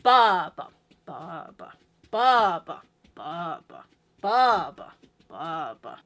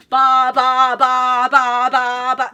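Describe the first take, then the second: First: Big "ba", weak, medium, very weak "ba"; dancing "ba" beats with tiered accents; four-four hierarchy. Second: Every "ba" very loud and equal; relentless identical loud BA-BA-BA; same emphasis throughout. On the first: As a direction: chant BA-ba-Ba-ba, biggest on one. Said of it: "first beat is your main big beat". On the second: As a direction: pound out monotone "ba" beats, no gaps. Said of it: "same emphasis on all of the beats". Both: Shown as a demonstration.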